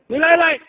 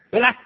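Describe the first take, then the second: First: It is said in Tongzhou dialect, with a doubled 'lai'. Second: It is said in standard Mandarin, with one 'lai'. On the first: "到通州不这么说" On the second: "普通话没来"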